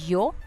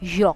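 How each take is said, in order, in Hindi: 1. शब्द की शुरुआत साधारण Y ध्वनि से होती है। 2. शब्द की शुरुआत J जैसी ध्वनि से होती है। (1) "it is not completely yo" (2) "a little touch of the sound of J"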